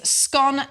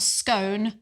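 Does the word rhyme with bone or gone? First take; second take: gone; bone. First: The vowel rhymes with gone. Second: The vowel rhymes with bone. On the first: The speaker calls it right. "the correct pronunciation is scone as in gone" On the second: The speaker calls it wrong. "not scone as in bone"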